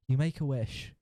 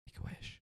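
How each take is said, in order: First: Said in the usual way. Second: Hushed, voiceless whisper. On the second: Pretend. Narrator echoes the dragon wish to the player, whispered. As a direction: whisper it like a secret echo. Whispered echo of story line.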